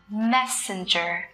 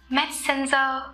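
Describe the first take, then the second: First: The first syllable is clearly stressed. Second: The first syllable is not clearly stressed. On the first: The speaker calls it right. "phát âm chuẩn của nó là Messenger" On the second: The speaker calls it wrong. "ứng dụng mà mọi người vẫn hay sử dụng"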